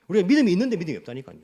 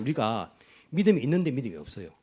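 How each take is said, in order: First: Louder and fast with a laugh, 믿음이 stressed; laughing insistence. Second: Said in the usual way. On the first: Shown as a demonstration. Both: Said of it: "무슨 말이, 무슨 말이죠?".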